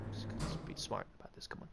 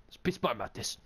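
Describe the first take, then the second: First: Whispering. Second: Said in the usual way. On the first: Real, not acted. Whispered sneaking.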